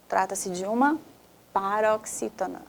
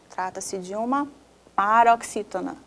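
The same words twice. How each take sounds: The two takes are said the same way.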